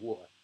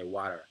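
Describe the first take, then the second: First: It is said in a British accent. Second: It is said in an American accent. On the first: "normally I would say water" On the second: "so I have to say water"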